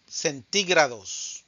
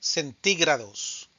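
Both takes have the same delivery.

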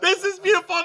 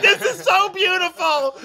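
First: High, louder, teary voice; happy crying, half-joking; mock teary. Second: High gushing delight; overjoyed gush. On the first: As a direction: pretend to choke up with joy. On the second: Retold or imitated. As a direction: gush over it, much higher and louder. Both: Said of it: "And I was like".

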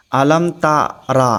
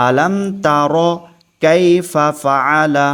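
First: তারা with a long a at the end, the mistake; wrong pronunciation. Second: তার ending short on র, no long a; correct pronunciation. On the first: Teacher showing students a common mistake, তারা with a long a. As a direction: say তারা with a drawn-out final vowel. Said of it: "অনেক মানুষ এখানে ভুল করে বসে". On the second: Teacher giving the correct form, তার short on র. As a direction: clip তার at র with a short vowel. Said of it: "আলাম তা র হবে". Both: Shown as a demonstration.

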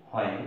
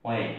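First: হোয়েন said with an audible h at the start, as hwen; common wrong pronunciation. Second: হোয়েন said as wen, with no h sound; correct pronunciation. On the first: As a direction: voice হোয়েন the usual mistaken way, h sounded. (হোয়েন ভুলভাবে, এইচ উচ্চারণ করে) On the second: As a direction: soften হোয়েন to wen, leaving the h silent. (হোয়েন সঠিকভাবে, এইচ ছাড়া) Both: Shown as a demonstration. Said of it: "এটা হবে".

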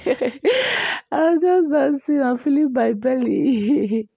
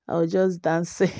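First: Laughing. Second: Said in the usual way. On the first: Real, not acted. Laughing over a pregnancy clip.

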